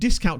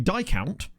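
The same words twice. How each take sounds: First: The first syllable sounds like 'dis'. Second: The first syllable sounds like 'die'. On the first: "If discount's pronounced discount" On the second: "I quite like the idea of being a die count"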